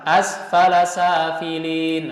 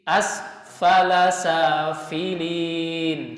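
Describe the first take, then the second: First: The f sound is cut short without spreading breath. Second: The f sound is spread with audible breath. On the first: The speaker calls it wrong. "seperti ini yang salah ... hilang ta'affufnya" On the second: The speaker calls it right.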